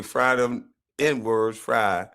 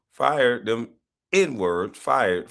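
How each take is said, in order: First: Slow "Fry them N-words, fry" with fry for fired; mispronounced fired. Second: "Fired them N-words, fired" with a clear fired; corrected fired. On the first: Retold or imitated. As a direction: drag out "Fry" as the misreading. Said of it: "as Rodney Drop should, uh, should say". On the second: Shown as a demonstration. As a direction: stress "fired" as the correct word. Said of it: "As Rodney Drop should say".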